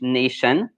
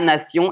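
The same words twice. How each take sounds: First: The ending sounds like 'shun'. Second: The ending sounds like 'see-on'. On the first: "in English nation" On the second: "la nation"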